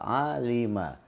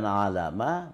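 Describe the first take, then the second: First: The middle vowel is i. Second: The middle vowel is a. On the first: The speaker calls it right. "huruf tengahnya itu kasrah" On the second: The speaker calls it wrong. "Bukan alama"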